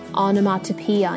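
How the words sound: The middle t is clearly pronounced. "イギリス英語だとこれがオノマトピアになるのかな"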